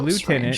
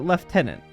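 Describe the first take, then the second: First: It is said without an F sound, like loo-tenant. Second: It is said with an F sound, like lef-tenant. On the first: This is how it is said where the speaker lives. "We pronounce it" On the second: This is how it is said in other parts of the world. "Other places of the world pronounce it"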